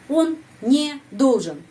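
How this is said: There is a break between не and должен. The speaker calls it wrong. "Bukan yang interrupt ya"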